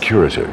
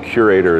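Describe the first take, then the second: First: It uses a continental-sounding pronunciation. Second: It uses the common, expected pronunciation. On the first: This version sounds grand and European. "something vaguely national treasure-ish and continental about" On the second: This is the version most listeners expect. "curator is what most people expect to hear"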